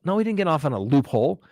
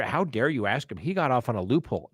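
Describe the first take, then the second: First: Said in the usual way. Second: Softer, sneering mock outrage; mimicking the indignant crowd, quietly scornful. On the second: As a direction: parody the outraged public, under your breath. Mocking people outraged by acquittals.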